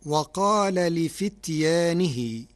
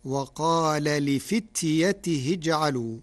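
First: "لفتيانه" with the long alif after the ya, drawn out slowly; Hafs reading. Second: "لفتيته" with no alif and a kasra on the ta; Warsh reading. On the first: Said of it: "قرأ ورش كلمة لفتيانه". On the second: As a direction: recite "وقال لفتيته اجعلوا", the alif dropped. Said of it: "فتصير". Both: Shown as a demonstration.

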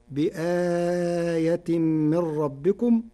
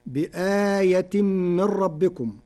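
First: بآية with the long vowel held medium length, slow; medium badal lengthening. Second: Said in the usual way. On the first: Shown as a demonstration. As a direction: stretch the آ in بآية to a middle length. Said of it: "فتكون هكذا". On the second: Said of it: "بتثليث البدل".

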